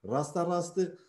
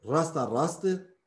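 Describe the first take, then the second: The two takes are said the same way.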